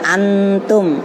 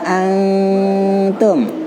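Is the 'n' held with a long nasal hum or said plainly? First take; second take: plain; nasal hum. First: The 'n' is plain, with no held nasal hum. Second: The 'n' is held as a long nasal hum. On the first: The speaker calls it wrong. "Jangan antum" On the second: The speaker calls it right. "dengung panjang ya"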